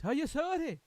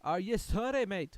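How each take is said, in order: First: Higher and loud, falling on sorry; mock accusing shout. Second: Loud, rising are you sorry; mock accusing shout. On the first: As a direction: hammer the accusation down. Repeats the demand. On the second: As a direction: demand an apology, question lifting on sorry. Mock-quoting the song at Britain.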